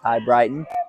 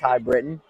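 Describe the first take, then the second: First: The second syllable rhymes with 'bite'. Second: The second syllable rhymes with 'bit'. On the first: The speaker calls it right. "it's High Brighton today" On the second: The speaker calls it wrong. "it's not pronounced High Britain"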